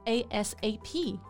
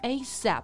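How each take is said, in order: First: Each letter is said separately. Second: It is said as a single word. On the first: "you can pronounce each letter individually" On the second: "You can pronounce it like ASAP"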